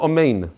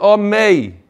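First: The word ends with a clear final n sound. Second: The word ends without the final n sound. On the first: The speaker calls it right. "Instead of Amen" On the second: The speaker calls it wrong. "Ketufa means that you drop the nun at the end"

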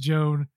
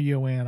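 First: The name begins with a J sound. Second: The name begins with a Y sound. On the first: This is how others misread the name. The speaker calls it wrong. "they keep asking for Miss Joan" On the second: This is how the name is meant to be said. The speaker calls it right. "it's actually pronounced Yoan"

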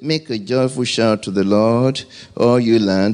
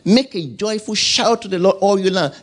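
First: It is read flatly, without energy. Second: It is read with lively, excited energy. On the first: The reader is passive and not engaging with the words. The speaker calls it wrong. "You don't say" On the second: The reader engages and responds to the words. The speaker calls it right. "There must be a response from the inside of you"

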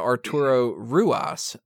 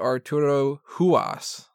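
First: The surname begins with an R sound. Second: The surname begins with an H sound. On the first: The speaker calls it wrong. "I've apparently been pronouncing this wrong" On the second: The speaker calls it right. "but they had said"

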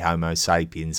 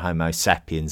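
First: It is said the American way. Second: It is said the British way. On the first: "Homo sapiens on the American side" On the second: "Homo sapiens on the British side"

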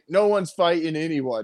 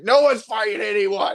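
First: It is spoken at a normal, calm volume. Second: It is screamed at a loud volume. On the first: "He wasn't just like" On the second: "Like, he screamed it"

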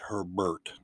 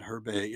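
First: The name ends in an 'ert' sound. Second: The name ends in an 'ay' sound. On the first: The speaker calls it right. "It's Herbert" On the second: The speaker calls it wrong. "It's not Herbay"

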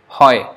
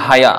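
First: The word is one syllable, 'hoy'. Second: The word is two syllables, 'ha-ya'. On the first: The speaker calls it right. "like hoy" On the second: The speaker calls it wrong. "Haya is something totally out, that is not pronounced like that at all"

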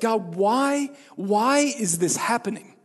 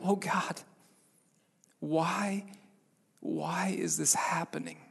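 First: It is said in a complaining, defiant tone. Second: It is said in a humble, contrite tone.

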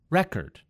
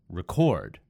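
First: The stress is on the first syllable. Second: The stress is on the second syllable. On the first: It is a noun. "words that have emphasis on the first syllable are typically nouns" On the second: It is a verb. "words that have stress on the second syllable are typically verbs"

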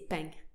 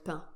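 First: It ends with an added southern 'ng' sound. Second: It has a standard French nasal vowel ending. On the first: "they'd say ping" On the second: "like the word pain"

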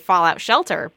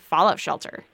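First: The stress falls on the word Shelter. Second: The stress falls on the word Fallout. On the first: It names the video game. "when we say it, we say Fallout Shelter" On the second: It names a bunker against nuclear fallout. "if you're talking about a Fallout Shelter, you say Fallout Shelter"

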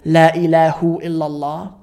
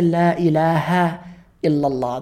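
First: The word after La ends in a 'u' vowel. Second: The word after La ends in an 'a' vowel. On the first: The speaker calls it wrong. "Do you ever wonder why we don't say" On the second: The speaker calls it right. "we say La ilaha illallah ... the word after it takes a fatha"

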